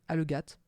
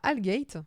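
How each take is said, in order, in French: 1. Le nom se prononce avec des sons français. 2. Le nom se prononce avec des sons anglais. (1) "à la française" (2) "je suppose que ça se prononce comme ça"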